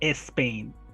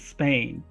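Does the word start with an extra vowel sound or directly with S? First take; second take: extra vowel; directly S. First: An extra E vowel is added before the S. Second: The word begins directly with the S sound. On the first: The speaker calls it wrong. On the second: The speaker calls it right.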